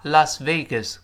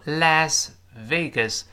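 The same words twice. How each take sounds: First: "Las Vegas" with Las as "lahs"; open ah vowel. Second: "Las Vegas" with Las as "lass", front a; alternative Las vowel. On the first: Teacher showing the more comfortable reading, "Las" with ah. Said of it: "在这里读啊". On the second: Teacher showing the other reading, "Las" as "lass". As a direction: flatten the a of "Las" to the vowel of "cat". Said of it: "有人也读成Las Vegas". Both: Shown as a demonstration.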